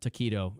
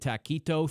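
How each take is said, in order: First: The word is said in a plain way. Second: The word is said in an odd accent. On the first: The speaker calls it right. "the better way to say that" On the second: The speaker calls it wrong. "I said taquito in a weird accent"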